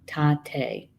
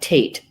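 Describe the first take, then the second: First: The word is pronounced as a Lakota reading. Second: The word is pronounced as an English reading. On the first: "I believe this would probably be pronounced Tate" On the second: "That's how you would pronounce it in in English"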